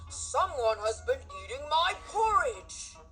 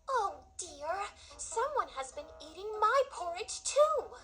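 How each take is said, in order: First: It is said in a big gruff Papa Bear voice. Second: It is said in a warm Mama Bear voice.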